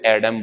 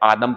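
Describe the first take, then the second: First: The name begins with a short 'eh' vowel. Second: The name begins with a long 'ah' vowel. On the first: This is how Christians say the name in English. "जो ईसाई हैं वो इसे एडम बोलते हैं, English में" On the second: This is how followers of Islam say the name. "आदम पढ़ते हैं, कह सकते हैं कि इस्लाम धर्म के लोग"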